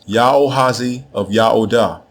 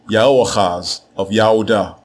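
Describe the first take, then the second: First: The name is said with a final extra vowel. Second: The name is said without a final extra vowel. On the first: This is the form written in the Akkadian text. "what we have in this text" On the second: This is the proper Hebrew form of the name. "to say it correctly in Hebrew"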